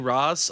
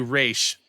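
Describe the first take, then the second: First: The name ends with a 'z' sound. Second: The name ends with an 'sh' sound. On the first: This is the anglicized local version. "If you're from Gotham City, you probably say Ra's al Ghul" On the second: This is the original, proper version. "there you say Raish because you that's how you say it"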